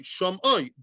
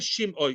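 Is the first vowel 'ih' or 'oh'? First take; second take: oh; ih. First: The first vowel sounds like 'oh'. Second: The first vowel sounds like 'ih'. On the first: The speaker calls it right. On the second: The speaker calls it wrong.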